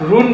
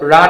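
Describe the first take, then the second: First: The vowel sounds like 'oo' in moon. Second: The vowel sounds like 'uh' in sun. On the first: The speaker calls it wrong. "আমরা রুন বলি, কিন্তু এটা রুন না" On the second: The speaker calls it right. "রান হবে"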